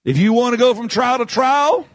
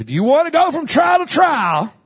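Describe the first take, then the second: First: Said in the usual way. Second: Louder retake. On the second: Shown as a demonstration. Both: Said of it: "I'll say it like this".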